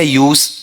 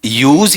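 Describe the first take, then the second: First: "यूज" ending in a hissed s, YOOS; stretched "यूज" closing on voiceless s; noun pronunciation. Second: "यूज" ending in a voiced z, YOOZ; stretched, louder "यूज" closing on z; verb pronunciation. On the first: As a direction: say "यूज" slowly with a sharp final s. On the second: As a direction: say "यूज" slowly with a buzzing final z. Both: Shown as a demonstration. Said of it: "noun में क्या पढ़ते हैं".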